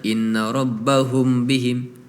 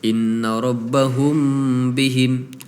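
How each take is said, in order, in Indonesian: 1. Bunyi m sebelum bihim dilepas cepat. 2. Bunyi m sebelum bihim ditahan. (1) "tidak ditahan" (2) "Harusnya seperti itu"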